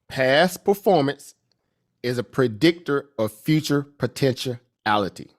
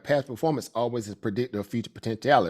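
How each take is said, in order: First: It is said slowly and deliberately. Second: It is said at a normal, quick pace.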